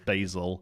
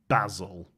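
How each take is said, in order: First: The name is said the North American way. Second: The name is said the British way. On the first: This is how some North American creators say it. The speaker calls it wrong. "I've heard two North American content creators now refer to this card as" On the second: This is the correct way to say the name. The speaker calls it right. "that correct pronunciation is"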